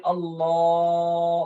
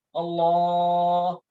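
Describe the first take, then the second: First: "Allah" held long before stopping; overlong Allah. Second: "Allah" stretched again, held long; overlong Allah. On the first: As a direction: keep holding the end of "Allah". ("Allah" dipanjangkan lama) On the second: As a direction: drag "Allah" out once more. ("Allah" dipanjangkan lagi) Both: Shown as a demonstration. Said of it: "lama banget".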